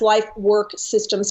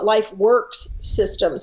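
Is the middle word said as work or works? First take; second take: work; works. First: The middle word ends without an s sound. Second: The middle word ends with an s sound. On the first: The speaker calls it right. "It's life work systems dot com" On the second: The speaker calls it wrong. "everybody wants to call it Life Works Systems, and it's not"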